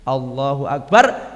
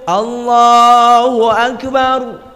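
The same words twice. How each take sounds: First: It is said softly and weakly. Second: It is said loudly and strongly.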